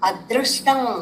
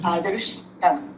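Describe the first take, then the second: First: The r sound is said fully and heavily. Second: The r sound is said very lightly. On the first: The speaker calls it wrong. "మామూలుగా మనం అదృష్టం అదృష్టం అంటూ ఉంటాం" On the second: The speaker calls it right. "ఆ రేఫని చాలా light గా పలకాలి"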